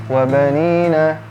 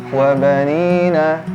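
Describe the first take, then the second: The two takes are said the same way.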